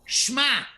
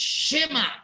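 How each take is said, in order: First: The sh runs straight into m, with no vowel. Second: A short vowel separates the sh from m. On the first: The speaker calls it wrong. "shma is incorrect" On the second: The speaker calls it right. "It's shema"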